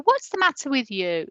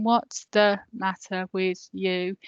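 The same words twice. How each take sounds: First: "What's the matter with you?" with the tone going up at the end; sing-song it like a spoken question; "What's the matter with you?" lilting, sing-song spoken tune; sing-songy question. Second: "What's the matter with you?" read slowly and evenly, as if off the page; "What's the matter with you?" drawn out, plain reading tune; flat read question. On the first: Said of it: "quite often their tone will go up at the end". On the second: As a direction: read it out slowly like text in your head. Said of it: "Whereas when you read a question". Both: Shown as a demonstration.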